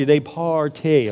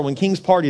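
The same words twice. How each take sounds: First: "party" stretched slowly over both syllables; drawn-out party. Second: Said in the usual way. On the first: Shown as a demonstration. Preacher telling how kings celebrate, "party" stretched out slowly. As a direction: draw "party" out long, syllable by syllable.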